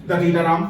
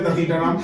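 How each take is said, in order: First: The name begins with 'd' and has 't'. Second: The same.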